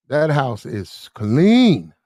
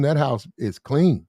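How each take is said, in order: First: "clean" drawn out slowly with a big swooping rise and fall; stress on CLEAN. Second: Said in the usual way. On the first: Acted. Man lays down the house rule, hard stress on "clean". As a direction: stretch out "clean" and punch it. Repeats for emphatic effect.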